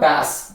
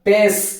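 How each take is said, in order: First: The vowel is an open 'a' sound. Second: The vowel is an 'e' sound. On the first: The speaker calls it right. "பாஸ் அப்படின்னு சொல்லி பண்ணணும்" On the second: The speaker calls it wrong. "பேஸ் அப்படின்னு சொல்லியிருப்பாங்க ஒரு சிலர்"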